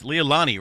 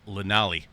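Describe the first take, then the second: First: The name is said as lay-lah-nee. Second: The name is said as leh-nah-lee. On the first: The speaker calls it right. "I got to pronounce that correctly" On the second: The speaker calls it wrong. "Last night it just kind of came out Lenali"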